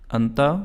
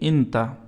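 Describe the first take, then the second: First: The word begins with an 'a' vowel. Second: The word begins with an 'i' vowel. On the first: This is the formal standard Arabic form. "फुसहा अरबी में इस इंता को अंता पढ़ते हैं।" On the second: This is the local spoken Arabic form. "Local अरबी में कहना है तो आप अंता के बजाय कहेंगे इंता"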